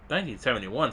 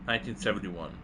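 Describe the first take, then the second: First: Incredulous rising question on "Nineteen seventy-one?"; surprised. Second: Said in the usual way. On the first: Real, not acted. Gamer repeating the file's date in disbelief.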